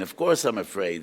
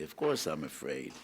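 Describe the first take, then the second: First: Of course I'm afraid said louder, with weight on course; repeating it louder for emphasis; insistent. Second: Said in the usual way. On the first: Acted. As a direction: press the words home as a firm admission. [name] repeats it with force.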